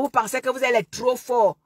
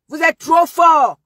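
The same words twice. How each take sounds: First: Said in the usual way. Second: Mocking taunt. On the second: Real, not acted. Mocking repeat of "trop fort.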